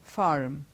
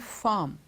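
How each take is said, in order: First: The R after the vowel is pronounced. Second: The R after the vowel is dropped. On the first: "when it's American English, it goes farm" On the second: "The R is hardly audible there"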